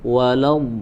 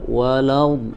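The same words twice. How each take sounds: Both takes have the same delivery.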